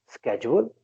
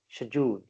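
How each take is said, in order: First: It is said with an American pronunciation. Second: It is said with a British pronunciation. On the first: "Americans would be pronouncing it as schedule" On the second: "British people will be pronouncing it as schedule"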